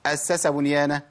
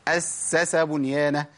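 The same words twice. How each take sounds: First: أسس hurried so three sīns sound like two; dropped s. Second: أسس slowly with a held double s; full shadda in أسس before the last s; correct triple s. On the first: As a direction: shorten the doubled s of أسس. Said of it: "كده الثلاث سينات دول بقوا اتنين تقريبًا". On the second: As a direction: give all three sīns of أسس their time. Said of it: "ده الصواب الأخيرة دي". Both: Shown as a demonstration.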